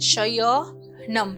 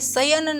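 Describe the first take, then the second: First: The word ends with a final m sound. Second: The word ends without a final m sound. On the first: The speaker calls it right. "એનું ઉચ્ચારણ થશે શયનમ" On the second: The speaker calls it wrong. "પરંતુ એ શયન નથી"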